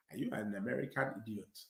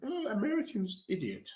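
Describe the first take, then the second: First: Much lower, quiet African accent. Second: Higher, soft put-on British accent. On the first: Football fan demonstrating his put-on accents, African accent. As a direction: drop low and soft into an African accent. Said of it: "With the African accent is". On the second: Football fan demonstrating his put-on accents, British accent. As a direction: lift the pitch and soften into a British accent. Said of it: "Then with the British accent". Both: Shown as a demonstration.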